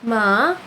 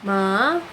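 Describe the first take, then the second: No difference in how they are said.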